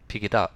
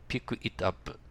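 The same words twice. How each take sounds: First: The words run together into one linked unit. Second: Each word is said separately and carefully. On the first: The speaker calls it right. "ネイティブどう言ってるか、ピックイットアップと言ってます" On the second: The speaker calls it wrong. "誰もそう言わないです"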